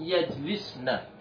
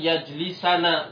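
First: The s is followed directly by n. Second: An a vowel comes between s and n. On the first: The speaker calls it right. "tetap dibaca lan yajlisna" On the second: The speaker calls it wrong. "Kalau ini salah"

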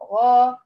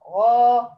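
The two takes are said the same way.

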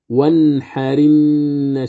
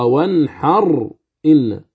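First: The r links straight into the following vowel. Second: The r is silent, then a glottal stop follows. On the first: The hamza's vowel moves onto the r. "كيف نقرأها؟" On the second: This is the underlying form before the vowel moves. "أصلها وانحر إن"

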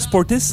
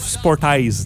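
First: The name ends with an 'iss' sound. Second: The name ends with an 'eyes' sound. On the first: "c'est Sportis, comme avec 4-I dedans" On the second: "mais ça se prononce Sportize"

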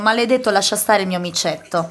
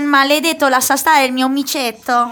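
First: It is said in standard Italian. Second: It is said in Vicentino dialect.

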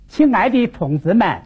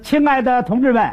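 First: It is spoken in a Hubei accent with sliding tones. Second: It is spoken in standard Beijing Mandarin. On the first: "换我们武汉方言" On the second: "刚才您看我说的，那是北京话"

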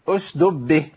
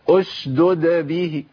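First: One d sound is dropped. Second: Both d sounds are clearly pronounced. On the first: The speaker calls it wrong. "جاب الساكنة وضيع المتحركة" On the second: The speaker calls it right. "لازم ابين الدالين"

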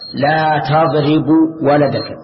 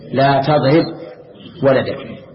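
First: The verb ends with a short vowel. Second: The verb ends in a bare consonant. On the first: The speaker calls it wrong. "خطأ" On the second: The speaker calls it right. "وجب الجزم"

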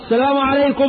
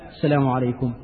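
First: The greeting is said loudly and forcefully. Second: The greeting is said softly and calmly. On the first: A greeting that disturbs people praying and reading. The speaker calls it wrong. "ايه يا عم داخل الدوار؟" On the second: A considerate greeting that does not disturb others. The speaker calls it right. "بهدوء كده"

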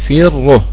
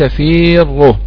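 First: The first vowel is short, without extra lengthening. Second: The first vowel is drawn out with extra lengthening. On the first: The speaker calls it right. "فيروه فقط هكذا" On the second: The speaker calls it wrong. "وليس فيروه"

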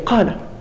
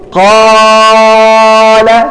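First: The long vowel is held for normal length. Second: The long vowel is stretched beyond normal length. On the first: The speaker calls it right. "المد الطبيعي حركتين فقط" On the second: The speaker calls it wrong. "هل يمكن أن تقول قال؟"

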